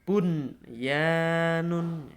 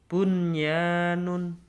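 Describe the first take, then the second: First: The n before the y is clearly pronounced. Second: The same.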